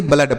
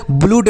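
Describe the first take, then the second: First: "ब्लड" with a short uh sound; correct reading. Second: "ब्लूड" with a long oo sound; wrong reading. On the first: Teacher repeats the right reading for pupils, "ब्लड" with short uh. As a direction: read the double O in "ब्लड" as uh. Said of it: "ब्लड पढ़ते हैं". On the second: Teacher warns pupils off the misreading, "ब्लूड" with long oo. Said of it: "इसको ब्लूड नहीं". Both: Shown as a demonstration.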